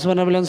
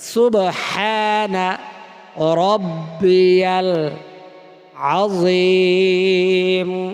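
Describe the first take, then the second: First: The phrase is rushed and slurred together. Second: The phrase is said slowly and clearly. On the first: The speaker calls it wrong. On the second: The speaker calls it right.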